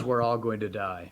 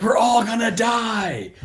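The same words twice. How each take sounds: First: Lower, softer matter-of-fact line; understated deadpan doom; flat calm statement. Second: High, slow, loud doom wail; hammed-up shout of doom; panicked shout. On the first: Retold or imitated. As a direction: say it plainly, no panic. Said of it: "he literally says". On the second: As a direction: wail it like the world is ending. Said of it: "He's like".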